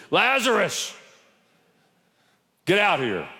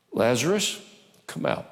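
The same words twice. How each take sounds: First: Booming call. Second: Said in the usual way. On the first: Shown as a demonstration. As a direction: call the dead man out to startle the church. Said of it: "I want to scare you". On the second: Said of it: "Jesus called in a loud voice".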